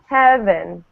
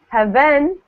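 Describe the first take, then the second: First: The stress is on the first syllable. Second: The stress is on the second syllable. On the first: The speaker calls it right. "I'm saying heaven. it's at the the first syllable" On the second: The speaker calls it wrong. "I'm not saying heaven"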